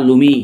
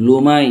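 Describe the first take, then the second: First: লুমি as "LOO-mee"; alternative pronunciation. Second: লুমাই as "loo-MY", drawn out; alternative pronunciation. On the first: Teacher offering the other reading to pupils, pronunciation demo of লুমি. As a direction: say লুমি with an "ee" ending. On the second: Teacher spelling out a word for pupils, pronunciation demo of লুমাই. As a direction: say লুমাই with a long "my" ending. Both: Shown as a demonstration. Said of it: "বা লুমি".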